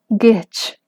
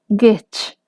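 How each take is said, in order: The two takes are said the same way.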